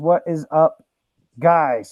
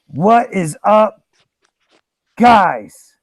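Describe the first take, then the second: First: It is said without a long pause. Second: A long dramatic pause comes before "guys".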